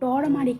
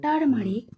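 First: The first syllable is said like 'tor'. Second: The first syllable is said like 'tar'. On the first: The speaker calls it wrong. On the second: The speaker calls it right.

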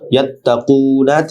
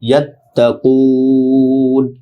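First: The word ends on a short final vowel. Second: The word ends on n after a lengthened vowel. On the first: "ইয়াত্তাকুনা থেকে" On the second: "শেষে একালিফ না হয়ে তিন আলিফ লম্বা হবে"

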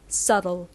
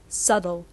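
Both takes have the same delivery.

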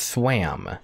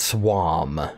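First: The vowel sounds like the one in cat. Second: The vowel sounds like the one in swan. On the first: The speaker calls it right. "It's swam" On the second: The speaker calls it wrong. "It's not swam"

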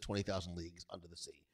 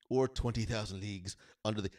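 First: It is said in a normal speaking voice. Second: It is said in a put-on impression voice.

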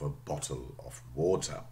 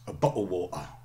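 First: The T sounds are pronounced as full T sounds. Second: The T sounds are replaced by glottal stops. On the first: "instead of" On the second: "glottaling turns sentences or produces phrases like that"

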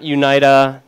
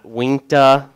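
First: The name is said as 'you-nee-tuh'. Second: The name is said as 'wink-tuh'. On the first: "not Unita" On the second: "not Winkta. My dad calls it that still"

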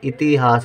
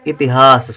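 First: The second syllable has a long vowel. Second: The second syllable has a short vowel. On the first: The speaker calls it wrong. "यदि ता में बड़ी की मात्रा लिख देंगे तो इतिहास हो जाएगा, इतिहास गलत" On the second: The speaker calls it right. "इतिहास सही"

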